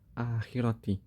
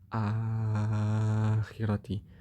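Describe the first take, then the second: First: The long vowel is held for two beats. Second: The long vowel is held for six beats. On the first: "kalau kita kan bacanya biasanya qasr" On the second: "Kalau tul ya lebih panjang lagi"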